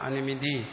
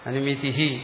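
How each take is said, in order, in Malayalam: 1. ഈ വാക്ക് ശ്വാസമില്ലാതെ സാധാരണമായി അവസാനിക്കുന്നു. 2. ഈ വാക്ക് ശ്വാസമുള്ള 'hi' ചേർത്ത് അവസാനിക്കുന്നു.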